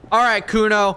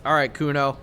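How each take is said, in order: First: Louder, higher, pumped up before the roll; excited rallying call; psyched-up call. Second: Said in the usual way. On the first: Real, not acted. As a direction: hype yourself up for the big moment.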